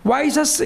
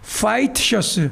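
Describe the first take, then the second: First: It is said as wai-syeocheu, with no h or t. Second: It is said as hwaiteu syeocheu, with h and t. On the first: This is the Japanese-derived form. The speaker calls it wrong. "와이셔츠 이제 하지 맙시다" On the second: This is the English-based form. The speaker calls it right. "화이트 셔츠라고 되는데"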